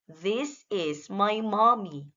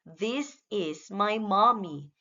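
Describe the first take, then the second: No difference in how they are said.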